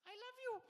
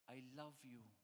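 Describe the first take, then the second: First: It is said in a higher-pitched voice. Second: It is said in a normal voice.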